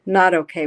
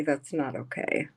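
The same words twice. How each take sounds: First: "Not" hit louder, falling firmly on "okay"; stress on not. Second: Said in the usual way. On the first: Real, not acted. Repeating it to the chat, stressing "Not". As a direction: punch "Not" hard to drive it home.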